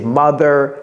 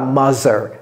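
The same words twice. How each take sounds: First: The th is said with the tongue between the teeth. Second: The th is said the French way, without the tongue between the teeth. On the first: The speaker calls it right. "La langue entre les dents" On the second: The speaker calls it wrong. "Ce n'est pas mother"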